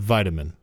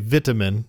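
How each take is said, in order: First: The word is said with an American pronunciation. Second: The word is said with a British pronunciation. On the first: This is how the speakers say it at home. "instead of vitamin" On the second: This is how people in England say it. "they say vitamin"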